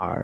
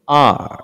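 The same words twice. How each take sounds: First: আর with a full sounded R; old learner pronunciation. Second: আর as long "aah", R barely sounded; correct letter pronunciation. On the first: Teacher recalling how learners used to say it, sounded-R pronunciation. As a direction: finish আর on a clear, short R. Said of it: "আগে কি বলতাম?". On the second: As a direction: stretch আর and keep the R very small. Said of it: "এখন আমরা কি বলবো?". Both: Shown as a demonstration.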